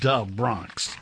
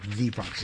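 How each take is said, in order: First: The first word starts with a hard d sound. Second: The first word starts with a soft th sound. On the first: The speaker calls it right. "it's Da Bronx, D-A Bronx" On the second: The speaker calls it wrong. "Not the Bronx"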